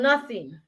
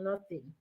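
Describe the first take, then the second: First: Firmer, fuller-voiced dismissal; mildly irritated brush-off; acted angry denial. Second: Low, much softer dismissal; barely voiced, sulky brush-off; sullen denial. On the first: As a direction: deny it with a touch of anger. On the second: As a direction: brush off the question quietly. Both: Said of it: "you will be there outrightly angry".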